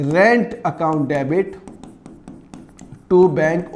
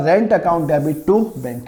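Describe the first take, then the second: First: Very slow, word by word, pausing before the last words; slow dictation. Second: Said in the usual way. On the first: Shown as a demonstration. Teacher dictating the journal entry to the class, very slowly. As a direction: dictate it so students can write it down. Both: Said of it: "क्या entry करूँगा?".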